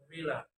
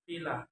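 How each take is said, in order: First: Said in the usual way. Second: "villa" with v said as f; learner's mispronunciation. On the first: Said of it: "as in the word". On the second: Shown as a demonstration. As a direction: say "villa" as "fila". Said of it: "is pronounced".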